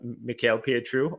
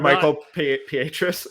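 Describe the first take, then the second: First: The name has a non-American pronunciation, final s dropped. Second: The name has an American pronunciation, final s sounded.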